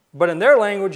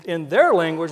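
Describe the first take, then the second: First: "their" hit louder with a falling tune; stress on their. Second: Said in the usual way. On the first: Shown as a demonstration. Preacher stressing "their" to the congregation, emphatic. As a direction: lean hard on "their", louder.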